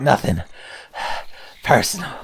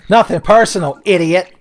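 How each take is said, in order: First: Nothing, then a big breathy sigh, then personal; mock winded edgelord line; out of breath. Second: Higher, louder smug edgelord taunt; loud cocky mock edgelord one-liner; edgy taunt. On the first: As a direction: gasp mid-line as if winded. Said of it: "I'm gonna be out of breath". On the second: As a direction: sneer it like a cool anime rival. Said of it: "Like this fucking thing".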